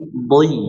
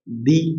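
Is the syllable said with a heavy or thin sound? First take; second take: heavy; thin. First: The syllable is said heavy and full. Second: The syllable is said thin and light. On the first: The speaker calls it right. "tapi dhi" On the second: The speaker calls it wrong. "Nggak dibaca di"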